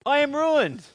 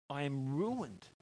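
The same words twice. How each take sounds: First: High, loud cry of despair; ruined, thrown high and loud; anguished cry. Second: Quiet, slow confession of ruin; hushed despair. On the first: Isaiah's cry read aloud. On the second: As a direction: let the words sink in quietly. Isaiah's words repeated, hushed. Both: Acted.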